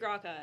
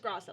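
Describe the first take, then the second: First: The middle consonant is a k sound. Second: The middle consonant is an s sound. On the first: The speaker calls it wrong. "Just replace the C with an S" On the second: The speaker calls it right. "It's just Grasa"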